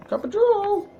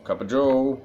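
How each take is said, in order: First: Very high squeaky Cup of joe; silly squeak. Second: Said in the usual way. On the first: Shown as a demonstration. Repeats the phrase in a silly voice.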